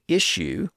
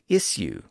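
First: The middle consonant is an SH sound. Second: The middle consonant is an S sound. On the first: "with an SH sound" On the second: "with an S sound, especially if you're in Britain"

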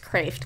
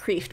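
First: The name is said with a different vowel. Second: The name is said the way it is spelled. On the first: The speaker calls it right. "but it's Kreeft" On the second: The speaker calls it wrong. "It looks like Kreeft"

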